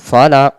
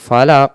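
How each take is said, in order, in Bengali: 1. শেষের ব্যঞ্জনটি গভীর, আর একটা ঝাঁকুনি দিয়ে ছাড়া হয়। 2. শেষের ব্যঞ্জনটি গভীর, আর একটা ঝাঁকুনি দিয়ে ছাড়া হয়।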